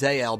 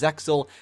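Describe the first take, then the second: First: The name is said without any x sound. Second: The name is said with a clear x sound. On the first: This is the Japanese pronunciation. "basically with the X being silent" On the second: This is the English pronunciation. "in English we refer to it as Zexal"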